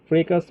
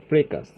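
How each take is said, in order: Both takes have the same delivery.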